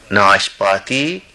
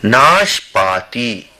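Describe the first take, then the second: First: Said in the usual way. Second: ناشپاتی drawn out slowly, each syllable clear; teacher says ناشپاتی slowly and clearly; slow Hindi demo. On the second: Shown as a demonstration. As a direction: spell out ناشپاتی slowly for learners.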